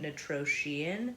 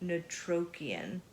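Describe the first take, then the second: First: The middle consonant is a sh sound. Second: The middle consonant is a hard k sound. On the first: The speaker calls it wrong. "I was pronouncing it Notroshian" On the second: The speaker calls it right. "but it's with a C R"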